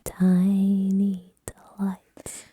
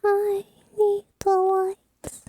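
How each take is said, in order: First: Drawn-out breathy whisper; slow whisper. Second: Drawn-out whisper, pitched up; slow high whisper. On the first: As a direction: whisper it very slowly. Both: Pretend.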